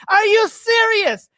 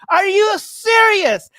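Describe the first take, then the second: First: Higher, slower disbelief; stunned, pitched up and drawn out; incredulous. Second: Real outrage, shouted slowly; incredulous shout. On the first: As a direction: rise up in pure disbelief. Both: Real, not acted.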